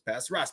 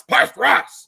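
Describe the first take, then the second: First: Said in the usual way. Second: Louder, higher call. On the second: Shown as a demonstration. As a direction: call it out across the table. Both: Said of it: "repeated with a louder take".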